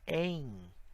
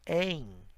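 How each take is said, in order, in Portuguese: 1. A vogal é nasal, terminando em i. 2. A vogal é nasal, terminando em i.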